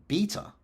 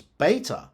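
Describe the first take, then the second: First: Beta as BEE-tuh; non-US pronunciation. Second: Beta as BAY-tuh; US pronunciation. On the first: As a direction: say beta with an "ee" vowel. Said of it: "rather than". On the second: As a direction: say beta with an "ay" vowel, American style. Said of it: "the U S pronounces". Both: Shown as a demonstration.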